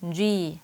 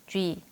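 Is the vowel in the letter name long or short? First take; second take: long; short. First: The vowel is drawn out longer. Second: The vowel is cut short. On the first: The speaker calls it right. "약간 길게 빼면서" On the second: The speaker calls it wrong. "짧게 발음하지 마시고요"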